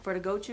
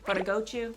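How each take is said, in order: First: Gochu is said with an American accent. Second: Gochu is said with a Korean accent.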